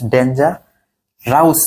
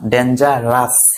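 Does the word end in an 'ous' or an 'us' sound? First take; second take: ous; us. First: The ending is pronounced 'ous' with a diphthong. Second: The ending is pronounced as a short 'us'. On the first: The speaker calls it wrong. "ডেঞ্জার রাউস না" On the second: The speaker calls it right. "ও ইউএস উচ্চারণ হবে কি আস"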